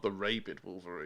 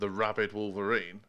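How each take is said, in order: First: Rabid is pronounced the British way. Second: Rabid is pronounced the American way. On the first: This is not how the name was said. The speaker calls it wrong. "not the Rabid Wolverine" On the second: This is how the name was actually said. The speaker calls it right. "definitely called the Rabid Wolverine"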